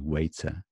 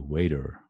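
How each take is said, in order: First: It is said with a British pronunciation. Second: It is said with an American pronunciation. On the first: "I would say probably waiter" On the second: "Americans would say waiter"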